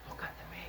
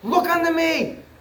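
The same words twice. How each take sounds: First: It is said softly, without force. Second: It is said loudly, with great force.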